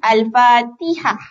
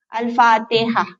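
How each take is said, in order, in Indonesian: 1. Vokal setelah t dibunyikan penuh. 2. Vokal setelah t dibunyikan pendek. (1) "kesempurnaan bunyi" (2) "Maksudnya tak kasrah T"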